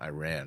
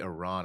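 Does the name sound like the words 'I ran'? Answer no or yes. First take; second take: yes; no. First: It sounds like the words 'I ran'. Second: It does not sound like 'I ran'. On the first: The speaker calls it wrong. "and not Iran" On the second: The speaker calls it right. "remember to say Iran"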